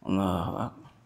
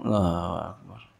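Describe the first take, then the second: Both takes have the same delivery.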